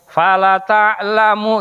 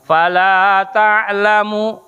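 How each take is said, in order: First: The vowel in 'la' is cut short. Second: The vowel in 'la' is held long. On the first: It means someone truly knows. The speaker calls it wrong. "kalau dibacanya la-nya pendek" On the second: It means no one knows. The speaker calls it right. "la-nya panjang"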